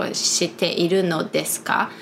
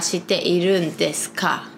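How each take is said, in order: First: The particle is said in full as no. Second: The particle is shortened to a bare n sound. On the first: "I think it's the proper sentence" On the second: "instead of that"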